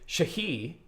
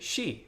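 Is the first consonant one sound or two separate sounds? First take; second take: two sounds; one sound. First: The s and h are sounded separately. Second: The first consonant is a single sh sound. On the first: The speaker calls it wrong. "you don't say shahi" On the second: The speaker calls it right. "You say she, right? It's one sound"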